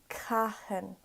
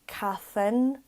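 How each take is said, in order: First: The middle consonant is a plain h sound. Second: The middle consonant is an English th sound. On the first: The speaker calls it right. "Just pronounce the H" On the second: The speaker calls it wrong. "they're used to the T H from English being th"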